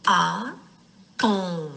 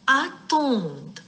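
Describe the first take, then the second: First: Attendre split with a long pause after the first A; syllable by syllable. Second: Said in the usual way. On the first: Shown as a demonstration. Teacher isolating the syllable, attendre broken as A, pause, TTENDRE. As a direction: sound out attendre slowly, A... TTENDRE. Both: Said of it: "l'entend dans la syllabe".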